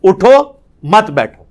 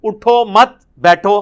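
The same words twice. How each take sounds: First: اٹھو alone, then مت بیٹھو together; pause after اٹھو. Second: Slow اٹھو مت, then separate بیٹھو; group اٹھو with مت, break before بیٹھو; pause after مت. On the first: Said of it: "بالکل الٹ ہو جائے گا". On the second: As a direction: join اٹھو مت and set بیٹھو apart. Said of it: "اٹھو مت کو علیحدہ کر دیں". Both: Shown as a demonstration.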